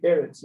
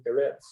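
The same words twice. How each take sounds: First: "Eretz" stressed on the first syllable, E-retz; "Eretz" with the accent up front, second syllable light. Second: "Eretz" stressed on the final syllable, e-RETZ; "Eretz" with a light first syllable and accented ending; stress on last syllable. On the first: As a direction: hit the opening E of "Eretz". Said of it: "That's where the accent is". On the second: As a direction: land on the end of "Eretz". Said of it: "put the accent on the last syllable". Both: Shown as a demonstration.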